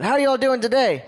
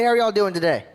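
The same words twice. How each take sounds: First: More energetic greeting. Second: Said in the usual way. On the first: Shown as a demonstration. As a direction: fire up the crowd on the repeat. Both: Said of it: "We can do a little bit of that".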